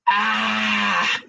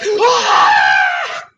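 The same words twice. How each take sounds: First: It is a short, small cry. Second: It is a loud, drawn-out wail.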